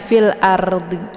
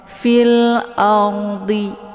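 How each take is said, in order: First: The r sound is light and thin. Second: The r sound is heavy and thick. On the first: The speaker calls it wrong. "jangan dilebarkan mulutnya, nanti keluarnya tipis. Jangan fil ardi ya" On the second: The speaker calls it right. "ra sukun ini dibaca tebal ya"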